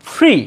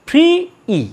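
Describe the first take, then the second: First: Said in the usual way. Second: ফ্রি, a pause, then ই alone; ফ্রি - ই, sounded in two pieces; broken into sounds. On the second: Shown as a demonstration. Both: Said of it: "একটা vowel sound করছে".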